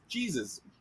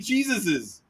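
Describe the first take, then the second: First: The name ends without an extra syllable. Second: The name ends with an extra syllable. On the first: The speaker calls it right. "It's Jesus" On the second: The speaker calls it wrong. "you don't say Jesus's"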